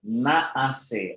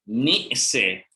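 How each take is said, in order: First: The first syllable has a full 'a' vowel. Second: The first syllable has a short reduced vowel. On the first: This is the form actually used. "we say naase" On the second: This is the underlying original form. "This is the original"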